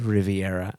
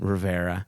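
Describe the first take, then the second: First: The name is said with four syllables. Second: The name is said with three syllables. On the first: The speaker calls it wrong. "I apologize if I said Riviera" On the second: The speaker calls it right. "I meant Rivera"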